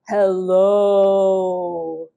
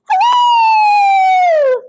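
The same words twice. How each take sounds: First: It is said in a low, deep voice. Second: It is said in a high, squeaky voice.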